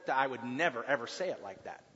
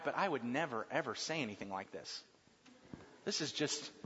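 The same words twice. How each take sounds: First: Said in the usual way. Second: Trailing off much softer and lower; shy man admitting he'd never say it; embarrassed aside. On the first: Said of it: "we don't talk like that very much". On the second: Retold or imitated. Man reading a greeting card for his wife, quiet and embarrassed. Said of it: "you read these cards and you say".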